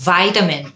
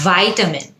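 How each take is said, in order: The two takes are said the same way.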